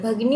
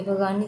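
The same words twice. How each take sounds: First: "भगिनी" with short i in the middle; correct form demonstrated. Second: "भगानी" with long aa in the middle; wrong form demonstrated. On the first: Teacher giving the answer, "भगिनी" pronounced bhaginee. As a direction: say "भगिनी" as bha-gi-nee. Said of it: "होता है". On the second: Teacher dismissing wrong option, "भगानी" pronounced bhagaanee. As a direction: say "भगानी" as bha-gaa-nee. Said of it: "भगिनी होता है". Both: Shown as a demonstration.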